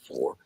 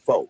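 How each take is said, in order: First: The word ends with an r sound. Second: The word ends without an r sound. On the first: "You're not saying ... for" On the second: "you dropped the R of pronunciation"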